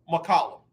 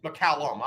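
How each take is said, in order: First: McCollum said with a slip on the name, corrected right after; a first, off go at McCollum; first try at the name. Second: McCallum said again, lower and softer, to fix the name; McCallum, a quiet self-correction; corrected name. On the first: Host says McCollum on air, then fixes it. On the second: Host corrects McCallum for the audience, softer. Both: Real, not acted. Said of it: "I'm sorry".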